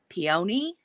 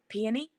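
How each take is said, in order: First: The word is said slowly. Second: The word is said quickly.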